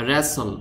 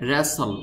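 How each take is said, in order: Both takes have the same delivery.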